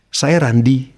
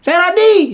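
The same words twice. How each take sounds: First: It is said clearly, with a calm, pleasant tone. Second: It is said sharply, with a confrontational tone. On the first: The listener feels comfortable. The speaker calls it right. "dengan penekanan suara yang pas, di telinga orang nyaman" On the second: The speaker seems to be picking a fight. The speaker calls it wrong. "Kenapa lo ngajak ribut gitu?"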